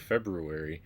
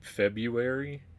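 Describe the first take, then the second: First: The first R sound is pronounced. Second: The first R sound is dropped. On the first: "I say February" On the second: "how do you say it without the R?"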